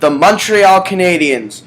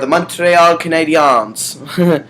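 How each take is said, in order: First: The name is said with an English accent. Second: The name is said with a French accent.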